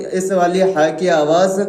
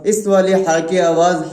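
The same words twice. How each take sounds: The two takes are said the same way.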